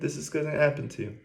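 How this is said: The tone is warm and concerned. It is a loving warning from someone who cares. The speaker calls it right.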